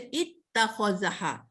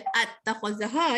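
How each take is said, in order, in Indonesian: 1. Kata ini diawali dengan vokal 'i'. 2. Kata ini diawali dengan vokal 'a'. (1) "Kita baca ittakhazaha" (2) "Kita tak baca attakhazaha"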